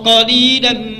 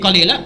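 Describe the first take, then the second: First: The word ends with n, running into the next. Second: The word ends on a vowel, with no n. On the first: They sleep little at night. "Tapi kalau kita teruskan" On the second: The people of the garden are few. "Kalau kita baca berhenti wakaf jadi qalila"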